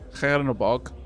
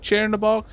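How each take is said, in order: First: The first consonant is a fully hard sound. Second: The first consonant is a soft 'ch' sound. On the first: "Hard would be" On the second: "pronounced with a soft C H"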